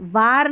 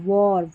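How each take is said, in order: First: The vowel is an open 'aa' sound. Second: The vowel is a rounded 'aw' sound. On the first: The speaker calls it wrong. "वार नहीं" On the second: The speaker calls it right. "वॉर यानी कि युद्ध"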